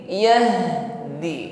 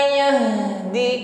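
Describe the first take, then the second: Both takes have the same delivery.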